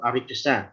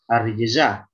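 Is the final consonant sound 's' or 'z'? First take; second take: s; z. First: The final consonant is a voiceless 's' sound. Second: The final consonant is a voiced 'z' sound. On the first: The speaker calls it wrong. "jangan arijesa" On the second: The speaker calls it right.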